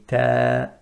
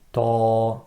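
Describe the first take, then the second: First: Ta thin, sound descending; light ta. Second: Ta thick and raised; the incorrect heavy ta; ta with a full rising sound; heavy wrong ta. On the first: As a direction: correct light ta. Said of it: "we say ta". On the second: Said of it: "and not ta". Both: Shown as a demonstration.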